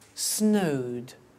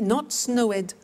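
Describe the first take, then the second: First: The ending is a plain D sound. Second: The ending is pronounced as an extra syllable. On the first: The speaker calls it right. "but studied, closed, snowed" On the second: The speaker calls it wrong.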